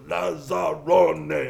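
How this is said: The word is broken into separate syllables.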